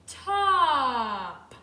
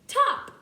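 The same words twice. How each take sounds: First: The sounds are stretched out slowly. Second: The sounds are said quickly together. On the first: "Now let's put them together slowly" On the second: "Now let's read the word"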